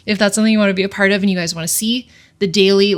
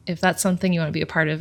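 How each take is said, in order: First: Louder, brisk and bright after composing herself; upbeat reset. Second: Softer, choked-up and fast, still welling up; quietly holding back tears; emotional. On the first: Pulling herself together to invite viewers, upbeat and louder. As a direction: shake it off and pitch it cheerfully. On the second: Tearing up while inviting viewers to follow along, softly. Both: Real, not acted. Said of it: "I'm really sorry for getting emotional".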